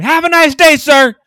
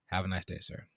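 First: Much higher, much louder sarcastic scream. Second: Lower, softer polite farewell; quiet. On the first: Shown as a demonstration. Clerk screaming a sarcastic goodbye at the rude customer. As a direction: scream it like a smart ass. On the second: Retold or imitated. Clerk quietly dismissing the rude customer, low and soft. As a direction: say it under your breath, politely. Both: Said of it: "you just scream".

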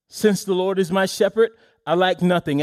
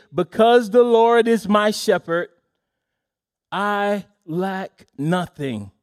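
First: Said in the usual way. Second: Quoting David with solemn emphasis; emphatic. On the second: Acted. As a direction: lean hard on the Lord, then slow way down on I lack nothing. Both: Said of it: "David says emphatically today".

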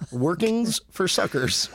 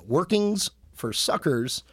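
First: "Workings for suckers" said slowly again, each word separate; spelled out slowly. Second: "Workings for suckers" said slowly, each word separate; spelled out slowly. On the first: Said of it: "the number four". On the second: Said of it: "that's the number four". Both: Shown as a demonstration.

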